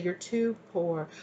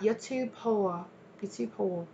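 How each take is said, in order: First: Said in the usual way. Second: "You're too poor" in a slow, higher, badly faked foreign accent; mock the accent, drawn out and clumsy; bad put-on accent. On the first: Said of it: "I'm hearing somebody say". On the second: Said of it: "they're saying it in kind of an accent".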